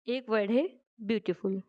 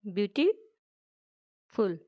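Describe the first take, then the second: First: Said in the usual way. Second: ब्यूटीफुल said very slowly, syllable by syllable, softer; split into syllables. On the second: Shown as a demonstration. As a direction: stretch out ब्यूटीफुल part by part to show its syllables. (ब्यूटीफुल को धीरे-धीरे, हर syllable अलग करके बोलें) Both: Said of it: "जो word हैं छोटे-छोटे, जिनको break किया जा सकता है".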